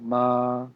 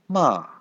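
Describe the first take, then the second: First: It is said with the first tone. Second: It is said with the fourth tone. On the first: "First one" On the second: "Fourth one"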